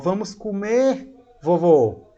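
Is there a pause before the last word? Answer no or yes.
yes. There is a short pause before the last word. The grandfather is being invited to eat. The speaker calls it right. "Então tem uma pausa, perceba"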